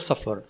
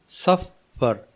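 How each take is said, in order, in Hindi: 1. दोनों अक्षर आपस में मिलाकर सहजता से बोले जाते हैं। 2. दोनों अक्षर अलग-अलग बोले जाते हैं। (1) "इसको एक साथ बोलते हैं तो" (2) "सफ़र दो हिस्से हो गए ना"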